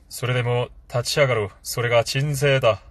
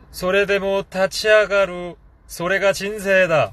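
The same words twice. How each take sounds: First: It is said in a lowered, deeper voice. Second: It is said in the speaker's normal voice.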